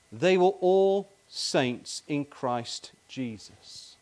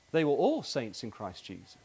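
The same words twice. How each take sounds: First: Very slow, all drawn out and leaned on; slow read with the weight on all; stress on all. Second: Said in the usual way. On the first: Shown as a demonstration. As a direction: spell out "all" slowly, weighting each word. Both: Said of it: "look at the first ... like two bookends".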